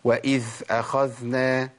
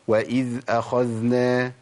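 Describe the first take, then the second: First: The dhal is breathy, like a voiceless th. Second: The dhal is clearly voiced. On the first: The speaker calls it wrong. "اسمعوا بقى الخطأ... دخلت على مخرج الثاء لأني مشيت النفس" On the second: The speaker calls it right. "مطلوب إن أنا أبين الصوت زي ما عملت كده"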